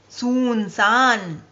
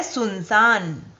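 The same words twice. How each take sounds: First: सुनसान said very slowly as the mistake; slow demo of the wrong सुनसान; सुनसान drawn out as the error; wrong pronunciation. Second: सुनसान said plainly as the right form; careful correct सुनसान; correct pronunciation. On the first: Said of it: "ये भी शब्द गलत है". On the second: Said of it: "इसका सही शब्द है". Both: Shown as a demonstration.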